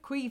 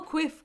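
First: The word has a long vowel, like 'queef'. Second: The word has a short vowel, like 'quiff'. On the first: The speaker calls it wrong. "I call quiff queef and I don't know why" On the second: The speaker calls it right. "I call quiff queef"

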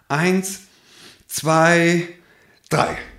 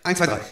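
First: The counting is said at moderate speed. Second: The counting is said quickly.

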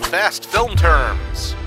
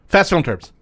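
First: It is said at normal speed. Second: It is said very fast.

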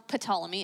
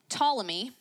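First: The initial P is pronounced. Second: The initial P is silent.

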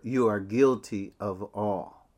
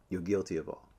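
First: It is said more loudly. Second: It is said at normal loudness.

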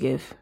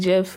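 First: It begins with a hard G sound. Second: It begins with a J sound, like Jif. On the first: This is how it reads at first sight. "but I'm going to call it GIF" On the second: This is the pronunciation the creator intended. "it's supposed to be GIF"

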